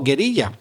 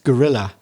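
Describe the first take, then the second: First: The word is pronounced with Spanish sounds. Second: The word is pronounced with English sounds. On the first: "you Spanish speakers are thinking" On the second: "in English, pronounced gorilla"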